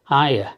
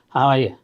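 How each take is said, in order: First: The phrase is squeezed into two quick syllables. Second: The phrase is said in full, three clear syllables.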